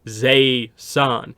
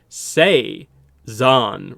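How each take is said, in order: First: The name begins with a z sound. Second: The name begins with an s sound. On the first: This follows the spelling of the name. "the way it's spelled is Z E I S A N" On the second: This is how the name is said in the intro. "they pronounce it as if it's the S and the Z are like reversed"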